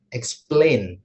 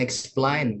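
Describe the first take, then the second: First: The second syllable uses the 'a' vowel. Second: The second syllable lacks the 'a' vowel. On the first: The speaker calls it right. "tapi explain, Jadi pakai A gitu ya" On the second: The speaker calls it wrong. "bukan explain"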